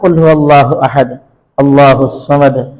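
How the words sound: It stops after 'ahad' before 'allahus samad'. "ওয়াকফ করলে"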